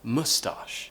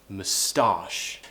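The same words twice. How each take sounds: First: The stress is on the first syllable. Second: The stress is on the second syllable. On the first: "I hear a lot of people pronounce it as moustache" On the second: "with a schwa sound, and we move the stress"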